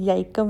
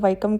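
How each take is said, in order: First: The word begins with a y sound. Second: The word begins with a w sound. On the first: The speaker calls it wrong. "याइकम नहीं कहते" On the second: The speaker calls it right. "इसको वाइकम कहते हैं"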